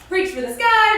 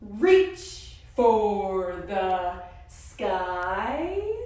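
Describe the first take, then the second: First: It is said very fast. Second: It is said very slowly.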